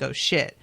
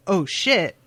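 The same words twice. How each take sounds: First: Startled recognition. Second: Said in the usual way. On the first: Retold or imitated. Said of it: "heard it and was like". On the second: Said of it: "Or if she was just saying".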